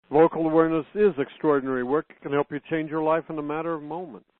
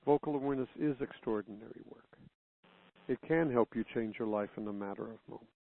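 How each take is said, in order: First: It is said in an arrogant, boastful tone. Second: It is said in a sincere, truthful tone.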